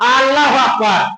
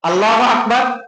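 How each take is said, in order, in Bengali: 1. প্রথম স্বরধ্বনিটি দীর্ঘ করে টেনে পড়া হয়। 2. প্রথম স্বরধ্বনিটি হ্রস্ব রাখা হয়।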